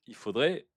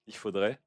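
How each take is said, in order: First: Said in the usual way. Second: Laughing. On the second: Real, not acted. Repeats phrase while laughing.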